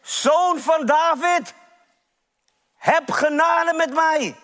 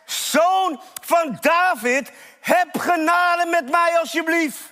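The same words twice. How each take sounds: First: High, drawn-out call for mercy; preacher acting a beggar's cry. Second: High, insistent plea for mercy; desperate acted shout to be heard; crying out even harder. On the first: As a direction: call out slowly to someone passing by. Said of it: "hij roept en hij schreeuwt". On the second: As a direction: stretch the name, then beg urgently. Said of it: "hij schreeuwt des te harder".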